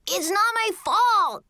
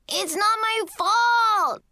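First: High, drawn-out whine of denial; child's shouted protest. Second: Put-on high, long-drawn kid's shout; shouted protest. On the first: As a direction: protest high like a blamed little kid. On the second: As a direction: shout it higher and stretch it into a wail. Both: A narrator's reading. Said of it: "Kevin shouted again".

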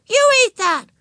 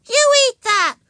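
First: Put-on high, loud insistent child; high-pitched bossy yell; shouted command. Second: Put-on high, loud bossy child; shrieked little-kid demand; shouted command. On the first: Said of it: "she repeated". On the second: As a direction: shout it as a small girl's order. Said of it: "she shouted". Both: A narrator's reading.

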